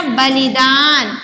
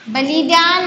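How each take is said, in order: First: बलिदान with short लि and long दान; बलिदान, drawing out only दान; correct pronunciation. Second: बलिदान with a long ee in the middle; बलिदान with ली held too long; wrong pronunciation. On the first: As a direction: model बलिदान slowly, middle i short. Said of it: "छोटी ई की मात्रा". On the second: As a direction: misread बलिदान, stretching ली. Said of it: "नहीं है ना". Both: Shown as a demonstration.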